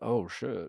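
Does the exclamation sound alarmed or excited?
alarmed. It sounds alarmed and full of dread. Someone unwelcome from the past has appeared. "but not like"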